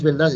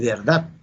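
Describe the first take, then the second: First: "verdad" pronounced "veldad"; the dialect form of "verdad", veldad; Puerto Rican l-for-r. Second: "verdad" with a clear r before the d; correct pronunciation. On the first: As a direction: say "verdad" with l in place of r. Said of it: "Y no es verdad". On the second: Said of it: "Y no es verdad, es verdad". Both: Shown as a demonstration.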